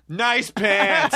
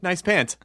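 First: Higher, drawn-out sarcastic compliment. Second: Sincere, straightforward compliment. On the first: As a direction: exaggerate the praise so it sounds fake. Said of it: "sarcastically to the people". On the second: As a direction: pay the compliment as if you mean it. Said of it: "you could say it sincerely". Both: Shown as a demonstration.

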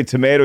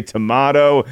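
First: Tomato with a long AY in the middle; tomato the American way, to-MAY-toh. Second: Tomato with a broad AH in the middle; tomato the British way, to-MAH-toh. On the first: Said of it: "I say tomato, you say tomato". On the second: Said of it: "you say tomato". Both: Shown as a demonstration.

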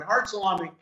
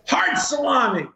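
First: Said in the usual way. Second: Higher-pitched mock insult, drawn and falling; childhood insult. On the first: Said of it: "fantastic to eat". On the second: Guest quoting his childhood comeback, as a mock insult. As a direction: throw it out as a playful brush-off. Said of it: "if you wanted to insult somebody".

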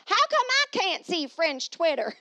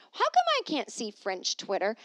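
First: High, loud, slow mock French accent. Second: Said in the usual way. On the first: Shown as a demonstration. Repeating her question to viewers in a mock French accent.

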